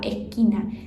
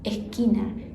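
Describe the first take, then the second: First: The s is aspirated, Argentine style. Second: The same.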